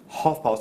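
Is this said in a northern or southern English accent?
southern. It is said in a southern English accent.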